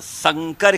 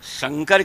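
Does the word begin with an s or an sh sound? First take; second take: s; sh. First: The word begins with an s sound. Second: The word begins with an sh sound. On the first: It means a hybrid or mixture. The speaker calls it wrong. "स और श" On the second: It names the god Shankar. The speaker calls it right. "स और श"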